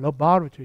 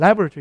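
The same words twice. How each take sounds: First: It is said in a British accent. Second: It is said in an American accent. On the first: "영국 가면" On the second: "미국에서는"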